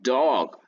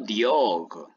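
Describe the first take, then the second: First: It starts with a plain d sound. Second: It starts with a dee-like d sound. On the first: The speaker calls it right. "Aquí es dog" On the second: The speaker calls it wrong. "no diog"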